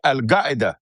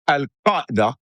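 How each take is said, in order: First: Qaeda begins with a hard g sound. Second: Qaeda begins with a deep back q sound. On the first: "You change that Q to a G" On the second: "instead of"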